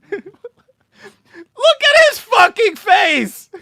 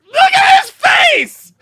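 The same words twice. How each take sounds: First: Slow shout broken by laughter; laughing shout. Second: Loud, slow, drawn-out shout. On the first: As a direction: yell while cracking up laughing. Laughing at clip. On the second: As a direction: yell it out in disbelief. Mocking clip guy's face. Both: Real, not acted.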